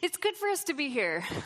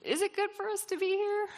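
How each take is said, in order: First: It sounds confused but excited. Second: It sounds like a doubtful question.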